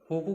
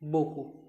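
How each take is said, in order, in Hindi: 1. यह शब्द h ध्वनि से शुरू होता है। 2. यह शब्द b ध्वनि से शुरू होता है। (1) "होकू की जगह" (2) "होकू की जगह बोकू"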